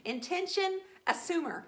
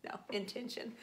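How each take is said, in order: First: "Intention assumer" announced high and punchy; proud label. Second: Careful correction of intention; corrected word. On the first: Naming herself an intention assumer, proudly. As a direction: proclaim "Intention assumer" like a title. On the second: Correcting her own slip on "intention". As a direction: say "intention" clearly, correcting herself. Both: Shown as a demonstration.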